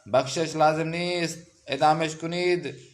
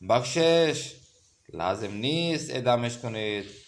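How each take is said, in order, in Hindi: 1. विराम शब्द nist के बाद आता है। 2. विराम शब्द lazim के बाद आता है। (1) "तो इसका मतलब है कि अब इसको फांसी दे दो" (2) "माफ़ कर दो, इसको फांसी ना दो"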